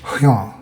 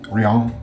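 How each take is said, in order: First: The R sounds throaty, almost like an H. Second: The R sounds like a plain English R. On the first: "the R's are pronounced kind of like an H" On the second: "I'm gonna just say Rian"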